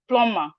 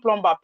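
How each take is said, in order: First: No B sound is heard in the middle. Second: A B sound is heard in the middle. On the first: The speaker calls it right. "The B is silent, so it's plumber" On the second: The speaker calls it wrong. "It's not plumber"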